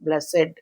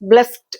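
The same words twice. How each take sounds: First: The word is said as two syllables. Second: The word is said as one syllable. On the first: "it should be made into disyllabic. So blessed, blessed, like that" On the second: "In between there is only one vowel sound"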